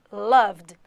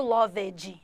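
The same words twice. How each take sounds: First: "Loved" in one syllable, silent e; firm, louder "Loved" ending straight in vd; correct -ed pronunciation. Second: "loved" in two syllables, "lóv-edji"; wrong -ed pronunciation. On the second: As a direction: sound out the -ed in "loved" as a mistake. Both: Shown as a demonstration. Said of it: "não quero ninguém falando loved".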